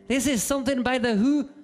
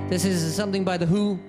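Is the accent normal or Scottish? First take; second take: Scottish; normal. First: It is said in a Scottish accent. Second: It is said in the speaker's normal accent.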